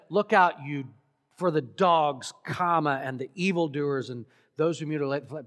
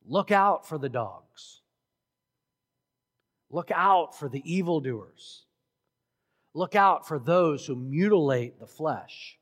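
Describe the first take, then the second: First: One warning run together as a list, speeding up at the end; single run-on list. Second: Three separate, forceful warnings, stressing each "Look out"; very emphatic warning. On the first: Shown as a demonstration. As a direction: rattle off "and the evildoers and those" quickly. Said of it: "because he could have said". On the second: Retold or imitated. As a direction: LOOK OUT hit hard and loud each time, with pauses between warnings. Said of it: "And very emphatically, three times".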